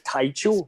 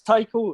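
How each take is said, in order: First: The middle consonant is a ch sound. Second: The middle consonant is a hard k sound. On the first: The speaker calls it wrong. "That would be stupid for it to be" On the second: The speaker calls it right. "Of course, it's Taiko"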